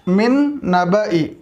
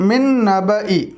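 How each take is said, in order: First: The vowel after 'nab' is short. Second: The vowel after 'nab' is short.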